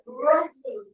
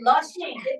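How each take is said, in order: First: The word begins with an R sound. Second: The word begins with an L sound. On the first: The speaker calls it right. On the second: The speaker calls it wrong.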